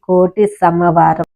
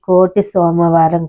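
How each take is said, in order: First: The second word begins with 'sa', an a vowel. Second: The second word begins with 'so', an o vowel. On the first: The speaker calls it right. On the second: The speaker calls it wrong. "ఇది కోటి సోమవారం కాదండి"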